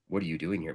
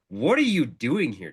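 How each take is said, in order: First: The question is asked in a mysterious, soft tone. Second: The question is asked in a blunt, direct tone. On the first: The question hints at something hidden. "It wasn't like this mysterious thing" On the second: The question demands a straight answer. "so point blank in the tonality"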